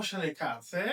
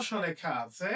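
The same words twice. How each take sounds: The two takes are said the same way.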